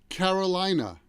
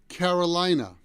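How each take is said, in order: First: It is said with an American accent. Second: The same.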